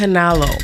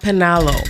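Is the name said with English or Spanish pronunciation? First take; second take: English; English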